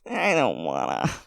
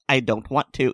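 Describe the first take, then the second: First: It is said in a whiny, reluctant tone. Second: It is said in a plain, neutral tone.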